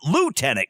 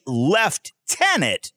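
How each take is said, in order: First: The word is said a non-Canadian way. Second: The word is said the Canadian way. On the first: This is not how members of the Canadian forces say it. "not lieutenant" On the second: This is how members of the Canadian forces say it. "You guys say lieutenant"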